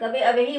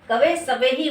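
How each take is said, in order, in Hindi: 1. दूसरा शब्द 'avehi' स्वर से शुरू होता है, इसमें s नहीं है। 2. दूसरा शब्द s की आवाज़ से शुरू होता है।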